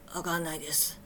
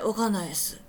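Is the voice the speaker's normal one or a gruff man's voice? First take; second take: gruff; normal. First: It is said in a gruff, middle-aged man's voice. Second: It is said in an ordinary, natural voice. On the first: "おっさん同士の会話かみたいな、そんな声で" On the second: "その時の声はこんな感じじゃなくて"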